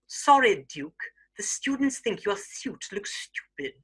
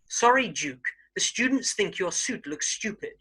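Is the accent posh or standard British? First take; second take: posh; standard. First: It is spoken in a very posh British accent. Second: It is spoken in a standard British accent. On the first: "a very posh Queen's English" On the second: "standard British English"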